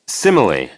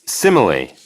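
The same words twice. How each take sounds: No difference in how they are said.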